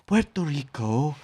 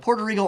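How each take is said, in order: First: It is said in an affected, foreign-sounding way. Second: It is said in a plain English way. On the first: "they've told me the real pronunciation is" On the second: "He'd go"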